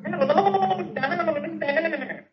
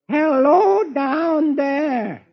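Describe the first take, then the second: First: Distant, high, long-drawn ghostly call; voice from the sink. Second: High, long-drawn call. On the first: Sergeant hears Beetle through the sink, distant eerie call. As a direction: sound muffled down a pipe, soft and stretched. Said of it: "hears Beetle's voice come out of the sink". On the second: Beetle calling down the pipe for help, high drawn-out holler. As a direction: stretch each word, calling high down a pipe. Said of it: "I'll crawl down this pipe". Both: Acted.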